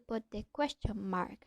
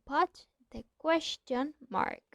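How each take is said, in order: First: The words are joined into one sound. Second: The words are said as separate sounds. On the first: "join these two words, and these two words sound as just one" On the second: "instead of"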